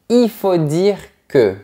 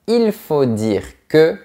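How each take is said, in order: First: The word il is said without its L. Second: The word il is fully pronounced with its L.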